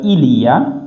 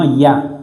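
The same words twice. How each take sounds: First: The word 'il' is fully pronounced. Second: The word 'il' is dropped entirely. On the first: This is the full standard form. "pour ne pas dire" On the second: This is casual spoken Parisian speech. "on enlève le il, on dit simplement"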